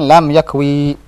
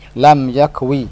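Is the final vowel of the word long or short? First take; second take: long; short. First: The final vowel is drawn out long. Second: The final vowel is cut short. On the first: The speaker calls it wrong. "jangan lam yakwi, jangan dibaca begitu" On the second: The speaker calls it right. "pendek dia"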